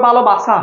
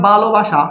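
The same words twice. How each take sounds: First: ভালোবাসা said "bhalobasa"; dental s, wrong way. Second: ভালোবাসা said "bhalobasha"; palatal sh. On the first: Teacher showing what dental letter would give, dental s. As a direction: hiss an English S in the last syllable of ভালোবাসা. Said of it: "তুমি দন্ত স দিলে হয়ে যাবে". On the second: Teacher giving pupils a familiar word, palatal sh. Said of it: "এটা দন্ত স দিতে পারবে না উচ্চারণে". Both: Shown as a demonstration.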